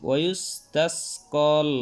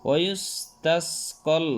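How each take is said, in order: Both takes have the same delivery.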